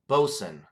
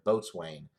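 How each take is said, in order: First: The word is shortened to two quick syllables. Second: The word is read out as it is spelled. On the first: The speaker calls it right. "it says Bosun, uh, in parentheses there, how to pronounce it" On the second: The speaker calls it wrong. "it looks like Boatswain"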